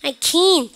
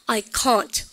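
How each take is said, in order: First: American accent, with the final t barely sounded. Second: British accent, with a broad vowel and t. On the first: "미국식 아시죠? ... 트 발음은 잘 하지도 않아요" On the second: "그 다음에 영국 애들 해보세요"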